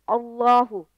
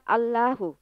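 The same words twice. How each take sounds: First: The l in Allahu is heavy and thick. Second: The l in Allahu is light and thin. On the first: The speaker calls it right. "harus dibaca bacaan tebal" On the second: The speaker calls it wrong.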